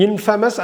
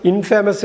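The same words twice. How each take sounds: First: இன்ஃபேமஸ் as 'IN-fuh-mus'; correct short pronunciation. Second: இன்ஃபேமஸ் with a long 'fay'; wrong 'in-FAY-mus'. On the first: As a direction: reduce the middle of இன்ஃபேமஸ் to 'fa'. (இன்ஃபேமஸ் - 'இன்ஃபமஸ்' என்று குறுக்கி) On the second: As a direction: pronounce 'famous' inside இன்ஃபேமஸ். (இன்ஃபேமஸ் - 'ஃபே' நீட்டிய தவறான ஒலி) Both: Shown as a demonstration. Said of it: "இன்ஃபேமஸ் இல்ல".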